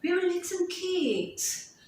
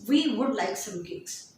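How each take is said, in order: First: Higher and slow, "would" reduced, "cakes" stressed with a falling tune. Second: Said in the usual way. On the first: Shown as a demonstration. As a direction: sing the tune down onto "cakes". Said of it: "So your main stress is". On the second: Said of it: "telling the person".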